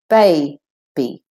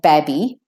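First: The first vowel is long, as in bay. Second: The first vowel is short, as in cab. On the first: The speaker calls it right. "we say baby" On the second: The speaker calls it wrong. "We don't say babby"

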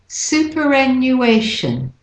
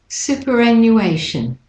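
Both takes have the same delivery.

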